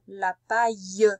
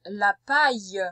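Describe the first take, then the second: First: "La paille" said slowly, every sound drawn out; slow dictation. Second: Said in the usual way. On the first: Shown as a demonstration. Teacher repeating "La paille" for the pupil, slow and deliberate. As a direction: stretch out "La paille" so the pupil can write it. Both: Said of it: "Allez, écoute bien".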